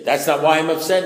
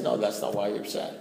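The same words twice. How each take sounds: First: Louder, higher indignant protest; loud, affronted comeback; indignant retort. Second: Said in the usual way. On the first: Acted. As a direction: snap back in protest at your sponsor. Voicing an indignant comeback to sponsor.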